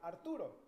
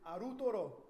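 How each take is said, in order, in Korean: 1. 이 이름은 'rt' 자음군을 붙여서 그대로 발음합니다. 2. 추가 모음이 'rt' 자음군을 둘로 나눕니다. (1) "So I would say Arturo" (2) "they would respond back and say Arutoro"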